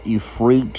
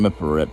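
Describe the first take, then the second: First: The name begins with an 'ee' sound. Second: The name begins with an 'if' sound. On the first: This is the name as others say it. "There's no E and then E E T" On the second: This follows the spelling of the name. "because it's if. It's the way it's how it's spelled"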